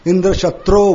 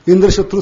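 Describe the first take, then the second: First: The phrase is pronounced with a long sound. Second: The phrase is pronounced with a short sound. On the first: One who is killed by Indra. The speaker calls it wrong. "उन्होंने दीर्घ किया" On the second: An enemy who kills Indra. The speaker calls it right. "लघु उच्चारण करना था"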